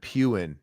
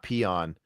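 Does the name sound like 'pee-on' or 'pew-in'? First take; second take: pew-in; pee-on. First: The name sounds like 'pew-in'. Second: The name sounds like 'pee-on'. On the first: The speaker calls it right. "Pewin, not peon" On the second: The speaker calls it wrong. "I say it wrong all the time"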